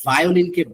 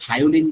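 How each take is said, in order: First: Said in the usual way. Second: "ভায়োলিন" with a Bengali bh for v; common mispronunciation. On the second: Shown as a demonstration. Teacher shows a common mistake, "ভায়োলিন" mispronounced with initial bh. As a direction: begin "ভায়োলিন" on bh, as "bhayolin". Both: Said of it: "common pronunciation mistake".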